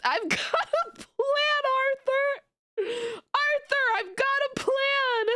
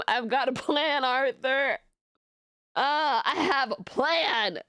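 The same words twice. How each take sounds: First: Quoting Dutch through giggles, much higher; laughing Dutch quote. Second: A slow, lightly voiced Dutch from Red Dead; Dutch impression. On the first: Retold or imitated. Streamer quoting a Red Dead line, laughing. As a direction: try to say it but keep cracking up. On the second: Streamer finally gets the Red Dead quote out, slow. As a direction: drag it out like the gang leader. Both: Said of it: "every time I hear".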